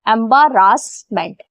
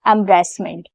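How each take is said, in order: First: Every letter's syllable is sounded out separately. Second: The middle syllables are reduced and run together.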